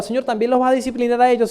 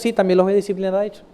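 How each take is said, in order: First: Quick question to God, lifted on "disciplinar a ellos". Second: Quick, settled reply on "Sí, también los voy"; matter-of-fact answer. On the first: Prophet asks God about the invaders, questioning. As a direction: ask "¿también los vas a disciplinar a ellos?" briskly, pitched up. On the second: God answers the prophet, matter-of-fact. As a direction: answer "voy a disciplinar a ellos" briskly as a statement. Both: Retold or imitated. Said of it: "Y le preguntaba".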